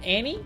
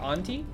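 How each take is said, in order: First: The T sound is soft, almost dropped. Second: The T sound is clearly pronounced. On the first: "is it a soft T? Like little Annie Oakley?" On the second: "I'm saying Ante, like Auntie"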